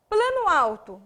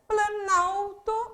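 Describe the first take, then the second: First: Two separate stressed syllables are heard. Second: Only one stressed syllable is heard. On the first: These are two independent words. "Plano, uma tonicidade, alto" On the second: The words have fused into one word. "apresentou uma sílaba fonética, uma tônica"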